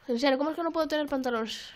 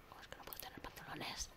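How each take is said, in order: First: Said in the usual way. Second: Hushed, breath-only whisper; barely voiced, whispered question; whispered complaint. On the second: Real, not acted. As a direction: repeat it as a whisper to yourself. Same question repeated in whisper.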